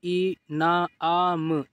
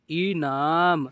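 First: इनाम slowly, broken into separate sounds; sounded out. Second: इनाम joined into one word, falling; blended reading. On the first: Teacher showing learners easy reading, इनाम sounded out. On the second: Teacher completing the word for learners, blended reading. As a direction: read इनाम whole after sounding it out. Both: Shown as a demonstration. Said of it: "इस तरीके से आप पढ़िए".

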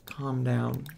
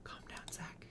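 First: Said in the usual way. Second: Breathy whispered hush; real soft whisper. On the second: Real, not acted. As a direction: whisper to settle someone. Soothing upset Sim.

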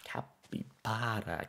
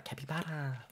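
First: Breathy whispered name, drawn out; whispering. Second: The name squeaked up high; high squeaky voice. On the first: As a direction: whisper it slowly, lovingly. Savoring the animal name. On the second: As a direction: pop it up into a squeak. Repeating the animal name. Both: Pretend.

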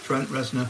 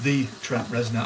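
First: Said in the usual way. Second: "the" said as a stressed "thee", falling off on "Trent Reznor"; the one and only, with "the" punched. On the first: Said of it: "not the real [name]". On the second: Shown as a demonstration. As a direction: lean hard on "the" to mean the famous one. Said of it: "as in Nine Inch Nails guy".

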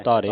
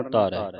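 First: ਧਾਰੇ ending in a narrow "ay" sound; wrong pronunciation. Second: ਧਾਰੈ ending in an open "ai" sound; correct pronunciation. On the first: Teacher shows the misreading, ਧਾਰੇ with narrow e ending. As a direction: say ਧਾਰੇ with a closed e at the end. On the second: Teacher corrects the reading, ਧਾਰੈ with open ai ending. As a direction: open the last vowel of ਧਾਰੈ, pitch lower. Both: Shown as a demonstration. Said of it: "ਨਹੀਂ ਪੜ੍ਹਨਾ".

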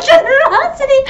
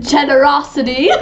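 First: Very high squealed GENEROSITY; high, self-mocking squeal; laughing mock repeat. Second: Said in the usual way. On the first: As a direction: repeat the word through giggles. Mocks own word, laughing.

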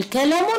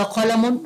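First: كلم opening on a light front k; wrong K sound. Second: قلم opening on a back-of-the-throat q; deep Q sound. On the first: Teacher offering pupils the wrong option, light k in كلم. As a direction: say كلم with k in place of q. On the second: Teacher offering pupils the correct option, heavy q in قلم. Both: Shown as a demonstration. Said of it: "بنقول كلم ولا قلم؟".

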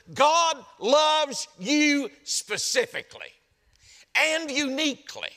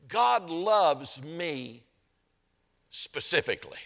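First: High, slow, forceful proclamation; emphatic preaching. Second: Very slow, each word given room; slow, weighted statement. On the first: Preacher assuring the congregation they are singled out, emphatic and raised. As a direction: drive each word home, pitched well up. Driving the point home to congregation. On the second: Preacher sharing his own revelation with the congregation, slow and measured. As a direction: let it land slowly, dropping on the last word. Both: Real, not acted.

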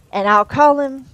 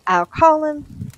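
First: Said in the usual way. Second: "call" stretched long and higher; slow and drawn out. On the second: A narrator's reading. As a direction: drag "I'll call him" out slowly. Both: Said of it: "said his master's voice".

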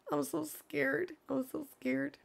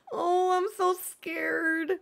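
First: Soft, murmured nerves; quiet nervous. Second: High, slow hammed-up fear; mock scared. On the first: Real, not acted. Streamer muttering to herself before the reveal, soft nervous murmur. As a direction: say it much softer, almost to yourself. Repeats it under her breath. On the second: Streamer teasing chat before the reveal, hammed-up high mock fear. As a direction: play at being terrified, drawn out high. About to reveal new villager.

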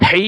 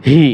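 First: "হি" with a tight Arabic pharyngeal h; throaty Ha sound. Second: "হি" as a simple "hee"; soft ha sound. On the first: Teacher contrasts two h letters, "হি" from mid-throat. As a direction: squeeze the throat on "হি". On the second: Teacher contrasts two h letters, "হি" with soft h. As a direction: open throat for a light "হি". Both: Shown as a demonstration. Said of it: "একটা উচ্চারণ ও প্রায় অন্যটার সাথে মিলে যায়".

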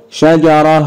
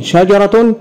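First: شجرة as shajarah; sukun ending. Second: شجرة as shajaratun, higher; voweled ending. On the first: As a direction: end شجرة on a breathed h. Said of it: "اتنطقت مرة تاء ومرة هاء". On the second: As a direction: say شجرة with a full "-tun" ending. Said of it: "كلمة شجرة انطق مرتين". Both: Shown as a demonstration.

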